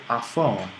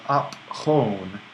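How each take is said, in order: First: "Aphone" run together as one word with an f sound; aspirated elision. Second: "op hone" as two slow, separate pieces; elided, unmerged. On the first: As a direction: merge the p and h into f in "Aphone". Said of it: "becomes aspirated itself". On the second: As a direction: say "op", then a breathy h starting "hone". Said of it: "we're eliding is because we're speaking quickly". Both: Shown as a demonstration.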